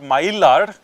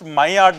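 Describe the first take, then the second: First: The word is pronounced the English way. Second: The word is pronounced the French way. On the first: The speaker calls it wrong. "not Maillard" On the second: The speaker calls it right. "It has to be pronounced Maillard"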